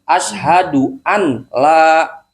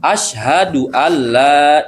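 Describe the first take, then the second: First: A clear n sound comes before the l. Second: The n disappears into a doubled l sound. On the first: The speaker calls it wrong. "nggak boleh dibaca begini" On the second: The speaker calls it right. "suara nunnya hilang menjadi suara lam"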